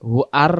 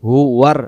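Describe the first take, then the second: First: The syllables are split apart with a break. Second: The syllables are joined with a w-glide. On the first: The speaker calls it wrong. "হু আর রহমানুর রাহিম বললে ভুল হবে" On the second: The speaker calls it right. "ওয়াও র জবর ওয়ার"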